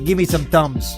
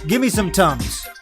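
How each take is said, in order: First: Thumbs is said in a standard accent. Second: Thumbs is said with a Chicago accent, like tums. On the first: The speaker calls it right. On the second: The speaker calls it wrong.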